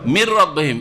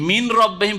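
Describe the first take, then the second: First: মির রব্বিহিম with the n wholly merged into a doubled r; মির রব্বিহিম, no trace of n; full merging. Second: মিন রব্বিহিম with a clear n before the r; মিন রব্বিহিম, n and r kept separate; unmerged n. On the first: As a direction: roll straight into a held r in মির রব্বিহিম. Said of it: "কিন্তু কি পড়ছেন". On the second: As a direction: sound the n fully in মিন রব্বিহিম. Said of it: "মিন রব্বিহিম পড়ছেন না". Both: Shown as a demonstration.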